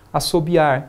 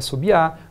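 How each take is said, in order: First: The final R is pronounced. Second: The final R is left off.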